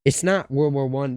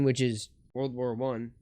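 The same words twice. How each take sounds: First: Correcting, with not hit hard; stress on not. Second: Said in the usual way. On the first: Shown as a demonstration. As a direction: lean on not, fixing herself.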